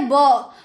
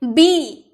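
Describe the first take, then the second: First: "ब" as the letter's sound, buh, not bee; phonic sound. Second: "बी" as the drawn-out alphabet name, bee; letter name. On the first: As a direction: sound out "ब" with an open short vowel, no ee. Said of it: "इसे बोला जाता है". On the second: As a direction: say "बी" with a long ee. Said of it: "आप तो ये बी बोलते हैं ना". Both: Shown as a demonstration.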